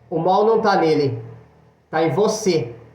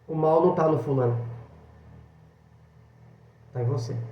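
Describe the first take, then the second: First: It is said a little louder. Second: It is said at normal volume.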